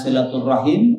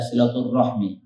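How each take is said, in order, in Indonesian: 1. Kata itu berakhir dengan bunyi 'rahim'. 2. Kata itu berakhir dengan bunyi 'rahmi'. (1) "pengucapannya ada dua. Ada silaturahim" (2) "ada silaturahmi"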